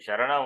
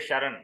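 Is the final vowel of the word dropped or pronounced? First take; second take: pronounced; dropped. First: The final vowel is pronounced. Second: The final vowel is dropped. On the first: The speaker calls it right. "Sharana is Sharana only" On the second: The speaker calls it wrong. "You cannot say Sharan"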